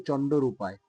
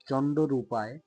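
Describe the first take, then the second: The two takes are said the same way.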